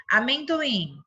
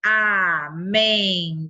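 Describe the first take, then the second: First: Said in the usual way. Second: Amendoim split very slowly, a-men-do-im, mouth opening on each; syllable split. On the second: Shown as a demonstration. Teacher shows children how to count syllables, very slow. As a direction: open the mouth wide on every syllable of Amendoim. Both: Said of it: "Quantas vezes eu abri a minha boca".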